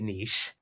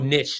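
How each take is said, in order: First: It is said to rhyme with quiche. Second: It is said to rhyme with rich. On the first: "I guess you would say niche" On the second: "the American way to say it is"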